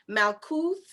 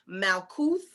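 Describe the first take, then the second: No difference in how they are said.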